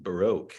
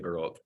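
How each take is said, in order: First: It is said with an American pronunciation. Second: It is said with a British pronunciation. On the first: "here in the U S, everybody says Baroque" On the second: "I say Baroque, they always giggle"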